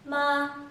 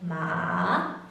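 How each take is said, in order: First: The pitch stays high and level. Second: The pitch dips low then rises again. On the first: "The first tone, or the high tone, remains the same" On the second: "The third tone both drops and then rises"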